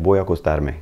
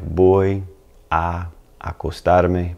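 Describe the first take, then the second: First: "Voy a acostarme" run together, the two a sounds merged into one; blended together. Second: "Voy a acostarme" said slowly, each "a" kept separate; slowed down. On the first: Teacher shows the natural blended form, smooth and linked. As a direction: glide through "Voy a acostarme" at normal speed, letting the "a a" merge. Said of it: "when it kind of blends together". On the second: Teacher slows the phrase so learners hear each part, slow and separated. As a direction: stretch out "Voy a acostarme" so both a sounds are heard. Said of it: "If you really slowed it down".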